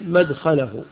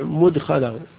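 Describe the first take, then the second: First: The first vowel is a. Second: The first vowel is u. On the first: The place of entering. The speaker calls it right. "بعضهم يضبطها بالفتح" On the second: The manner of entering. The speaker calls it wrong. "بعضهم يضبطها بالضم"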